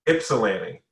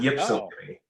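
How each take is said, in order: First: The word begins without a "y" sound. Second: The word begins with a "y" sound. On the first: The speaker calls it right. "you don't say the Y" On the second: The speaker calls it wrong.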